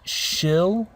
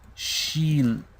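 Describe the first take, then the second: First: The vowel is a short, lax 'i' sound. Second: The vowel is a clear, long 'ee' sound. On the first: The speaker calls it wrong. "It's not shill. Okay, this is incorrect" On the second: The speaker calls it right. "we want the E sound. So this is what we're trying to aim for"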